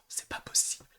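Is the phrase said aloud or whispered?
whispered. It is whispered softly without full voice. The person kept it quiet out of politeness. "il l'a chuchoté en disant"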